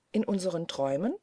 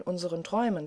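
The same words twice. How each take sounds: First: Brisk, questioning "Träumen?" with a final rise; quick echo question. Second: Said in the usual way. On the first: A narrator's reading. Marie echoes the famulus about dreams, quick questioning call. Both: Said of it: "rief Marie rasch".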